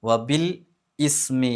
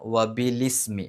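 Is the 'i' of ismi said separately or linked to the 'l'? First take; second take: separate; linked. First: The 'i' of ismi is said as a separate syllable. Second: The 'l' runs straight into the 'i' of ismi. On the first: The speaker calls it wrong. "എന്നല്ല" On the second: The speaker calls it right. "ബി കഴിഞ്ഞിട്ട് ലീ എന്നാ പറയേണ്ടത്"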